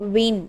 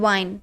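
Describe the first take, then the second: First: The vowel is a short 'ih' sound. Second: The vowel is a long 'eye' sound. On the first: The speaker calls it right. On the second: The speaker calls it wrong.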